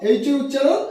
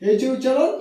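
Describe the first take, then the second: The two takes are said the same way.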